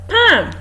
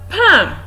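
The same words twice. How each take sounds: No difference in how they are said.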